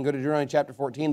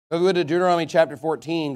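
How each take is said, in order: First: Quick softer restatement of Go to Deuteronomy chapter fourteen; fast repeat. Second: Said in the usual way. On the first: Shown as a demonstration.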